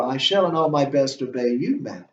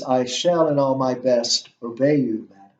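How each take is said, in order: First: "you" lifted and stressed, pointedly. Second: Said in the usual way. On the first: Shown as a demonstration. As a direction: lean hard on "you" before "madam". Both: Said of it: "you can always emphasize that word you".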